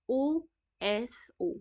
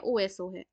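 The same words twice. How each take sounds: First: Drawn-out mnemonic. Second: Said in the usual way. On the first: Shown as a demonstration. Teacher drilling ओएसओ for students, stretched very slowly. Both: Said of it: "याद रखती हूँ ऐसे".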